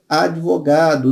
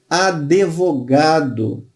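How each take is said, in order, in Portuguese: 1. Não se ouve vogal depois do d. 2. Ouve-se uma vogal extra depois do d. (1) "O D é mudo" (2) "Pronúncia equivocada"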